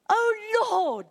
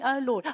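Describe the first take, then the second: First: It is said as an emotional cry. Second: It is said flatly, without emotion.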